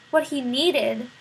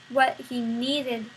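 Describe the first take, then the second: No difference in how they are said.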